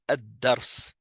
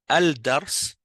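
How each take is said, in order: First: The L merges into a doubled D. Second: The L is pronounced before the D. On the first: The speaker calls it right. "c'est ad-dars" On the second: The speaker calls it wrong. "au lieu d'être al-dars"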